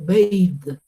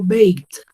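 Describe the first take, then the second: First: The word ends with a d sound. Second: The word ends with a t sound. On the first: The speaker calls it wrong. "baked con D al final" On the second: The speaker calls it right. "El sonido es de la T"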